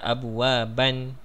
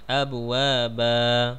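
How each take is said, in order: First: The word ends with an n sound. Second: The word ends with a long a vowel. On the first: The speaker calls it wrong. "tu salah" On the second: The speaker calls it right. "dua harakat"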